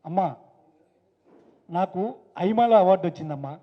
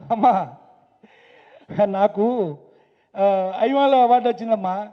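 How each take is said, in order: First: The line is spoken briskly without stretching. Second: The line is stretched out with a hesitating pause. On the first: It suits acting for film. "ఇది cinema" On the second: It fills out the time of a television episode. "ఎందుకంటే ఇది సాగదీయాలి"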